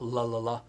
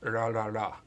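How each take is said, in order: First: The consonant is a clear L sound. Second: The consonant falls between an R and L. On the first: The speaker calls it wrong. "not la la la" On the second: The speaker calls it right. "R is between R and L sounds"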